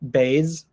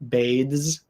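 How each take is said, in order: First: The th sound is dropped before the z. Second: The th sound is kept before the z. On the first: The speaker calls it wrong. "kind of take out the T H sound, so it's just bathes" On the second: The speaker calls it right. "If you're speaking clearly, the S in bathes is going to sound more like a Z"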